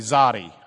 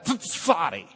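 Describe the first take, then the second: First: The word begins with a plain z sound. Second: The word begins with a ts sound. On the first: This is a casual local way of saying it. "If you're from Lubbock, you can just say czar. And you can just say zadi" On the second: This is the proper Hebrew way of saying it. "But if you want to be Hebrew, it's the tsar and the tsadi"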